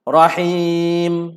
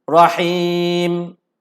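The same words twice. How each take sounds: First: The vowel before the final m is lengthened. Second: The same.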